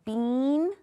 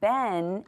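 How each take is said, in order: First: The vowel is a long 'ee' sound. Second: The vowel is a short 'eh' sound. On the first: The speaker calls it wrong. "Did you want to say bean?" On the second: The speaker calls it right. "that says eh"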